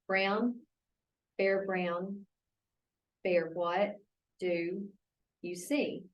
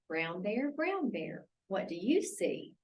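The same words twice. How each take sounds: First: Each word is read separately, choppy and flat. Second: The words flow smoothly in phrases with expression. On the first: The reader lacks prosody. The speaker calls it wrong. "Listen to this one" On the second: The reader reads with prosody. The speaker calls it right. "Or this"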